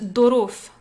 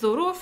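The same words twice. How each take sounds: First: The word starts with a heavy D sound. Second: The word starts without a heavy D sound. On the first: This is the Moroccan Darija form. "en derija marocain, on le prononce dorof, dorof. Avec un D, un gros D" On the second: This is the standard Arabic form. "ça vient du terme arabe dorof"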